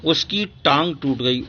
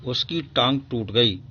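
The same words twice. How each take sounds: First: Said in the usual way. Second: Mild sympathy. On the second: Shown as a demonstration. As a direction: say it with a touch of pity. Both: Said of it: "ओह".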